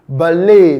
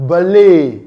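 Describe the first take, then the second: First: The final t sound is silent. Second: The final t sound is silent.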